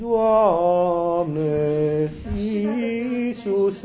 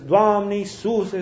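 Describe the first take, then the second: First: The words are said slowly, drawn out. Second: The words are said quickly, run together. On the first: The words drag so long the meaning is lost. "ai trecut de la un an" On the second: The words pass too fast to keep in mind. "zise așa repede"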